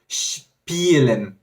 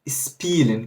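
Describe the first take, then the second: First: The word begins with a 'sh'-like sound. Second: The word begins with a plain 's' sound. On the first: The speaker calls it right. "ele vai ter esse som de S C H quase" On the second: The speaker calls it wrong. "Eu falava spielen, spielen, que seria o nosso S do português"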